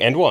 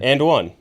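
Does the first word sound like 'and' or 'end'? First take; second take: end; and. First: The first word has the vowel of 'end'. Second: The first word has the vowel of 'and'. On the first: The speaker calls it wrong. "Am I saying it wrong? ... You're saying end one" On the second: The speaker calls it right. "oh, there it goes"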